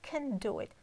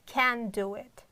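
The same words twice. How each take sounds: First: The vowel in 'can' is weak and short. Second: The vowel in 'can' is full and clear. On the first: The speaker calls it right. "I have pronounced like who can" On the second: The speaker calls it wrong. "Not can do it"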